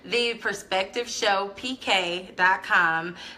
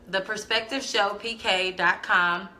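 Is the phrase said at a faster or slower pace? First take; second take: slower; faster. First: It is said at a slower, deliberate pace. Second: It is said at a normal, quicker pace.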